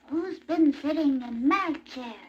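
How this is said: It is said in a teeny-weeny voice.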